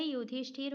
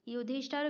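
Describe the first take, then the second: First: युधिष्ठिर ending in "thir", yudhishthir; correct pronunciation. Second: युधिष्ठर ending in "thar", yudhishthar; wrong pronunciation. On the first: Teacher correcting the word, युधिष्ठिर ending in "thir". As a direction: put a short "i" in the last syllable of युधिष्ठिर. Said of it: "होता है". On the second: Teacher marking it wrong, युधिष्ठर ending in "thar". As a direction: say the last syllable of युधिष्ठर as "thar". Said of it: "गलत है". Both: Shown as a demonstration.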